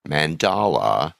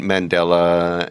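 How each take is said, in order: First: Slow "Mandala" with a broad ah in the middle; careful corrected "Mandala". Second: Slow "Mandela" with an e, the wrong name; a slow, careful wrong "Mandela"; mispronounced Mandela. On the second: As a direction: say "Mandela" as in Nelson, deliberately. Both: Shown as a demonstration. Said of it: "I keep trying to say Mandela".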